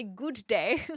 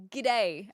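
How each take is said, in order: First: "good day" as two full words; own "good day". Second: G'day with a short, reduced first syllable; attempted Aussie g'day. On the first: Streamer showing chat their own version, "good day" fully sounded. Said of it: "I say good day". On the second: Streamer attempting the greeting they can't say, g'day run together. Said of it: "I can't even say g'day". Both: Shown as a demonstration.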